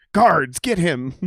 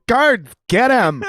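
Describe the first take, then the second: First: Slow, haughty order to the guards; mock royal command. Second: Slow, loud, much higher order; hammed-up royal command. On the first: The king mocks his guards, slow haughty command. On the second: Retelling the joke, louder slow royal command. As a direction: bellow for the guards like a pompous king.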